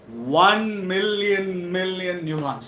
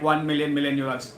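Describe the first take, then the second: First: It is said with lively emotion. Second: It is said flatly, without emotion.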